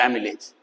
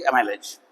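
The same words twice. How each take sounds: First: एमिलेज with a short "mi" in the middle; alternative pronunciation. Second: एमाइलेज with a long "my" in the middle; first pronunciation variant. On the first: Teacher offering the other form, एमिलेज pronounced "a-mi-lej". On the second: Teacher offering one of two forms, एमाइलेज pronounced "a-my-lej". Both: Shown as a demonstration. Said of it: "या एमिलेज".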